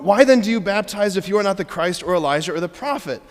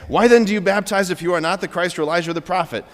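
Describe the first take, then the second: First: It is read with lively joy. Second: It is read in a flat monotone.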